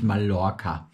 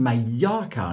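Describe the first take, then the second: First: The double L sounds like an l. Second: The double L sounds like a y. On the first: The speaker calls it wrong. "nicht Mallorca" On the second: The speaker calls it right. "LL wird immer I ausgesprochen. Das ist wie Mallorca"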